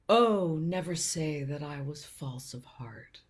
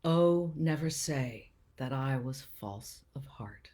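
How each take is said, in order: First: Drawn-out "Oh" launching a mock-grand retort; father's quoted reply. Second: Measured verse reading with small pauses; sonnet recital. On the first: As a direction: imitate dad lightly declaiming Shakespeare as a comeback. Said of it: "his response would often be". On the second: Acted. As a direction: recite it earnestly, unhurried, phrase by phrase.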